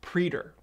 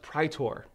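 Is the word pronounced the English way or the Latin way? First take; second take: English; Latin. First: The word has an English-style pronunciation. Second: The word has a Latin pronunciation. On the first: "or as they say it in the show" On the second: "I'm giving you the Latin pronunciations"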